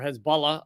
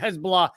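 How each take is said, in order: First: The name is said in a careful pronunciation. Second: The name is said in a casual pronunciation. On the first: The speaker calls it right. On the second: The speaker calls it wrong.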